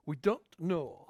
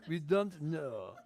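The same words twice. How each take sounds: First: English with an attempted French accent. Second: Slow English in a French accent. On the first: Preacher quipping in English to his congregation, light French accent. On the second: Preacher repeating his English aside for laughs, slow French accent. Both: Shown as a demonstration. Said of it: "J'ai essayé de dire ça avec un accent français".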